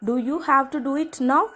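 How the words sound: The word now carries the main stress. Couldn't it be done later, like tomorrow? "நான் நவ்வை stress பண்ணுறேன்"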